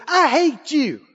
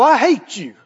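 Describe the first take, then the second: First: Lightly voiced angry child; small child's outburst. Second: Lightly voiced hateful adult; a hint of an adult meaning it; grown-up's hatred. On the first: Preacher acts out a young child's words, lightly voiced small child. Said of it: "if a baby, if a three-year-old". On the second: Preacher contrasts an adult with a child, lightly voiced hateful grown-up. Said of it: "A twenty-one-year-old look at you and go".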